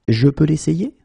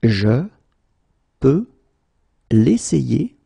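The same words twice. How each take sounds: First: Said in the usual way. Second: Each word split off by long pauses; slow, word by word. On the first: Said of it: "teacher repeats full sentence". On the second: Shown as a demonstration. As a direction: spell out Je, peux, l'essayer one at a time. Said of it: "teacher drills word by word".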